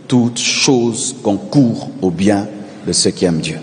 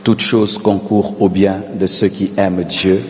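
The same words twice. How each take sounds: The two takes are said the same way.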